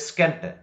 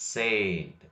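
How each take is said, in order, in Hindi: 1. s के बाद k की ध्वनि आती है। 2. s के बाद k की ध्वनि नहीं आती। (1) "don't say ಸ್ಕೆಂಟ್" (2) "we have to say ಸೇಂಟ್"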